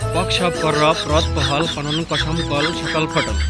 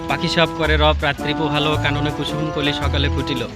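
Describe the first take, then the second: First: Most of the vowel sounds are dropped out. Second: The vowel sounds are all pronounced in full.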